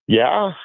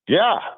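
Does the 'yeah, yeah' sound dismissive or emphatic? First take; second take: dismissive; emphatic. First: It sounds flat and dismissive. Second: It sounds emphatic and confident. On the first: It seems to doubt the team's chances. The speaker calls it wrong. "I know that didn't sound very" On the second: It affirms the team's chances. The speaker calls it right. "the reason why I want to emphasize the second, yeah"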